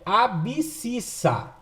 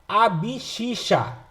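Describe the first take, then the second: First: It is said with a clear 'bs' and 's'. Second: It is said with 'sh' sounds like the letter X. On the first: The speaker calls it right. "O correto de falar é abscissa" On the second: The speaker calls it wrong. "Agora fala errado, ... Faz lembrar X"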